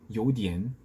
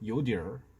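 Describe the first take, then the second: First: The word ends cleanly without an r-colored sound. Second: The word ends with an r-colored sound. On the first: "제가 방금 대만식으로 발음을 한 건데" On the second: "중국의 중국어와 비교를 해보면은 ... 이런 얼화가 들어가는 거예요"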